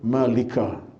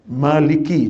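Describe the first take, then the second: First: The word ends with an 'a' vowel. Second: The word ends with an 'i' vowel. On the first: The speaker calls it wrong. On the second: The speaker calls it right.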